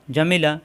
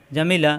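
The two takes are said the same way.

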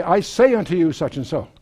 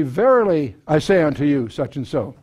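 First: Said in the usual way. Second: A firmer Verily, then the rest level; stress on Verily. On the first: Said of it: "When Jesus wanted to emphasize something". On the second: Shown as a demonstration. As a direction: lean on the opening Verily. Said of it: "If he really wanted to emphasize it".

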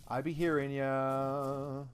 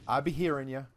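First: Slow, stretched out; "I be hearing ya" said slowly with "hearing" stretched; drawn out. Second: Said in the usual way. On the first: Shown as a demonstration. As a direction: drag out "hearing" lazily. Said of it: "repeat drawn out". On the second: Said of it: "said again slower".

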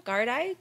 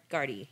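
First: Gardaí said as "gar-DYE"; tentative pronunciation. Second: Gardaí said as "GAR-dee"; corrected pronunciation. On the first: Podcaster guessing at an Irish word, Gardaí ending in "dye". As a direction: rhyme the end of Gardaí with "eye". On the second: Podcaster correcting an Irish word, Gardaí ending in "dee". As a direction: end Gardaí on a low "dee". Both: Shown as a demonstration. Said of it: "I'm gonna pronounce everything wrong".

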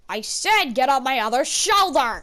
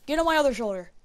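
First: Louder, stressing SAID, firm repeat; insist, as if repeating an order; insistent command. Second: Said in the usual way. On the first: Real, not acted.

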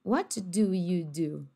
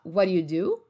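First: "What do you do" very slowly, each word clear; slow careful. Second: "What do you do" fast, T flapped, "wod u u du"; linked quick. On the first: Teacher shows the careful option, slow and clear. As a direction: spell it out word by word. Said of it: "também pode falar o quê". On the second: Teacher shows the connected option, quick and linked. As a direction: run it together casually. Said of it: "você pode falar". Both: Shown as a demonstration.

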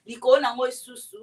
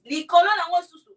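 First: Said in the usual way. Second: Higher and louder, punched out; emphatic repeat. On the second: Real, not acted. Telling viewers she is Luba, said louder and higher. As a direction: hit it hard and proud the second time.

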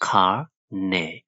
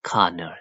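First: Colonel slowly split as "kar - ne"; syllable by syllable. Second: Said in the usual way. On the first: Shown as a demonstration. Teacher shows the pronunciation, colonel in split syllables. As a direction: break colonel into two slow parts. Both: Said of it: "အသံထွက်က".

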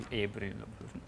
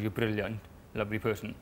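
First: Much softer, as if aside; quiet correction. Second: Said in the usual way. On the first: Real, not acted. Correcting the line while reading a letter, quiet. Rereads line to self, softly.

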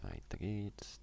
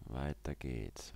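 First: Quick repeat, "geht's" lifted with a rising tune. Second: Slow, drawn-out call with a falling end. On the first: Player urging himself onward, ending on a rising lilt. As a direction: bounce the end up on "geht's". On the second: Player urging himself onward, slow and drawn out. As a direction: stretch "Weiter" long and let it fall. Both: Real, not acted. Moving on in the game.

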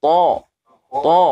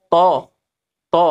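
First: To heavy, back of tongue lifted; thick istila to. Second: To light, back of tongue down; ordinary thin to. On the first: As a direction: darken "to" with the tongue root raised. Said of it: "Beda kan?". (to tebal, pangkal lidah terangkat) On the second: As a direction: say "to" with a plain everyday t. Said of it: "biasa kan". (to biasa, tidak tebal) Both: Shown as a demonstration.

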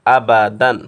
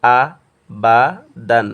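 First: "আ বা দান" run together as one word, louder; joined reading. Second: "আ", "বা", "দান" each said alone with a pause between; broken-up syllables. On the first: Teacher reads the word for students, "আ বা দান" all joined. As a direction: read "আ বা দান" connected, without pauses. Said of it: "একসাথে মিলে পড়ব". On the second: Teacher shows the second way of reading, "আ বা দান" syllable by syllable. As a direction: break "আ বা দান" into separate syllables. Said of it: "ভাঙ্গি উচ্চারণ করব". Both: Shown as a demonstration.

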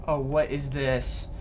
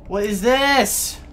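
First: Said in the usual way. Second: Slow, high, loud alarm; loud, slow alarmed question. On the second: Real, not acted. Louder slow repeat.

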